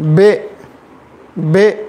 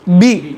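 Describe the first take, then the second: First: The vowel sounds like e, not i. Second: The vowel is short, smooth and relaxed. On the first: The speaker calls it wrong. "मजहूल अगर पढ़ेंगे बे बे" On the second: The speaker calls it right. "असल क्या है? बी"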